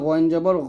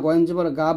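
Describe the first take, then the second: First: The final syllable ends in a short vowel. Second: The final syllable ends in a long 'aa' vowel. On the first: The speaker calls it right. "বলতে হবে" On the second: The speaker calls it wrong. "এটা বলা যাবে না"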